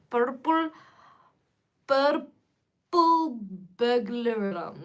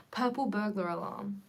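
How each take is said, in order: First: Slow, hammed-up Scottish accent; a clumsy try at a Scottish accent; bad Scottish accent. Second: Put-on Scottish accent. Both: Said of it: "I'm really bad at a Scottish accent".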